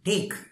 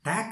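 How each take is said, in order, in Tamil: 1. உயிரெழுத்து 'ay' போல இழுத்து ஒலிக்கிறது, அழுத்தமாகச் சொல்லப்படுகிறது. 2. உயிரெழுத்து சாதாரணமாக இருக்கிறது, இழுப்பு இல்லை. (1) "கொஞ்சம் ஐன்னு டேக் ஒரு அழுத்தமாக டேக் அப்படின்னு சொல்லணும்" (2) "டேக் இல்லை"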